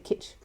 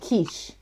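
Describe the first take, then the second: First: The vowel is short, like in 'kitchen'. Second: The vowel is long, like in 'quiche'. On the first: The speaker calls it right. "it's just like kitchen without the N on the end" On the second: The speaker calls it wrong. "I used to call it quiche"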